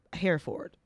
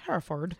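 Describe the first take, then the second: First: Said in the usual way. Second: "Hereford" with a reduced final syllable, like "furd"; London pronunciation. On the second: Shown as a demonstration. Host shows how they say it in London, "Hereford" ending in "furd". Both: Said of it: "They say it weird in London".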